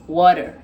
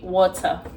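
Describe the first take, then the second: First: The middle consonant sounds like a soft d. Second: The middle consonant is a clear t sound. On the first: "like a D instead of pronouncing the T" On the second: "in Ghana we will say water, as the the British should say water"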